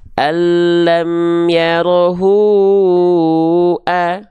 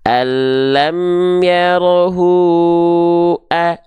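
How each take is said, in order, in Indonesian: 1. Vokal panjang ditahan selama lima harakat. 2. Vokal panjang ditahan selama empat harakat. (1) "Kalau lima harokat" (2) "contoh kalau empat harokat"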